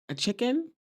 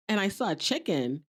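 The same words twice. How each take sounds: First: High rising mock surprise on "chicken"; surprised question. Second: Said in the usual way. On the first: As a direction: echo "A chicken?" in disbelief, pitched higher. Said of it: "Morello looks up like". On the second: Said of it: "She's like".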